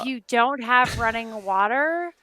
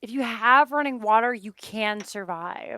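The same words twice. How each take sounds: First: "don't" leaned on as the opposite condition; emphasize "don't", leaving the thought open; stress on don't. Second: "have" leaned on as the condition; emphasize "have" against not having it; stress on have. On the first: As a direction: put the weight on "don't". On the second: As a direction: put the weight on "have". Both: Real, not acted. Contrasts having and lacking running water.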